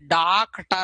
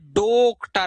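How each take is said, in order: First: The first vowel is a long open aa. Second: The first vowel is a closed o. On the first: "न तो ये डॉक्टर है" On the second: "न ये डॉक्टर है"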